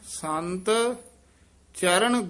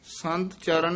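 First: The word sant is said with a doubled emphasis. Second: The word sant is said plainly, without emphasis. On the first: The speaker calls it right. "ਇਹ ਸੰਤ ਪਦ ਤੇ ਯਮਕ ਲਾ ਕੇ ਉਚਾਰਨ ਕਰਨਾ" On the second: The speaker calls it wrong. "ਸੰਤ ਚਰਨ ਨਹੀਂ ਕਹਿ ਦੇਣਾ"

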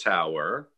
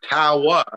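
First: The word is said with a standard accent. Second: The word is said with a Brooklyn accent. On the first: The speaker calls it right. "instead of tower" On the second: The speaker calls it wrong. "you say tower"

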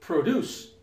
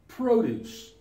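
First: It has the verb pronunciation. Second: It has the noun pronunciation. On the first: It names an action. "The verb" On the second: It names a thing. "The noun"

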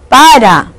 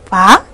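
First: The word is said in full, two syllables. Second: The word is cut short to one syllable. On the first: The speaker calls it right. "Es para" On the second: The speaker calls it wrong. "no está bien pronunciada la palabra"

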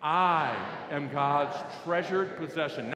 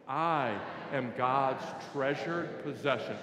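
First: It is said clearly at normal volume. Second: It is mumbled quietly and unclearly.

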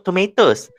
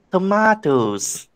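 First: It is said in a non-British accent. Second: It is said in a British accent. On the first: "Biasa kita sebut tomatoes" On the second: "kalau British accent, kita sebut tomatoes"

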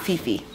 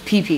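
First: The syllables begin with an f sound. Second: The syllables begin with a p sound. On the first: The speaker calls it wrong. "not Fifi" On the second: The speaker calls it right. "also P-H word, but it's PP"

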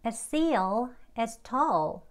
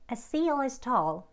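First: The sentence is said at a slow pace. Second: The sentence is said at a fast pace.

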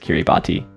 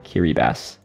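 First: The 'ti' is pronounced with a t sound. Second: The 'ti' is pronounced with an s sound. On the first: The speaker calls it wrong. "the alternate pronunciation is Kiribati" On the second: The speaker calls it right. "It's actually Kiribati"

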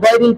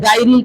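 First: The first sound is heavy and thick. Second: The first sound is light and thin. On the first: The speaker calls it right. "গয়রিল কেন হবে" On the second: The speaker calls it wrong. "গাইরিল কেন হবে না"

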